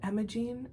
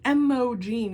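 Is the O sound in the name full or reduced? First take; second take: reduced; full. First: The middle O sound is lightly reduced. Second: The middle O sound is fully enunciated. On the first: The speaker calls it right. "But Emogene, oh, it's so beautiful" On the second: The speaker calls it wrong. "I wouldn't pronounce it like Emogene. You don't need to like really enunciate that O sound"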